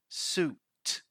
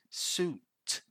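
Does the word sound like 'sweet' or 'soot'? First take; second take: soot; soot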